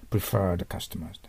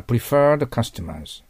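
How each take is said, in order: First: Slow repeat. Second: Slow model phrase. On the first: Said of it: "teacher repeats phrase". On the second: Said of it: "teacher models phrase". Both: Shown as a demonstration.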